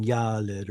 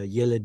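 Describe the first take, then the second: First: Yaled with a long "ah" in the first syllable; long kamatz. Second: Said in the usual way. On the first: Shown as a demonstration. Teacher gives second pausal example, yaled with long "ah". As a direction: stretch the "ya" of yaled. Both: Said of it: "it puts in a long kamatz".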